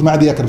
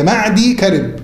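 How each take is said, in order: First: معدي يكرب with a voiced ya joining the words, maadiy yakrib; the mistaken reading معدي يكرب, ya sounded before كرب; wrong pronunciation. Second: معدي كرب with the ya silent, maadi karib, a little slow; correct pronunciation. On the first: Teacher repeating his slip to the class, maadiy yakrib. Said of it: "أنا غلطت قلت معدي يكرب". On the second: Teacher giving the class the right reading, maadi karib slowly. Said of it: "النطق الصحيح بتاعها إيه؟". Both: Shown as a demonstration.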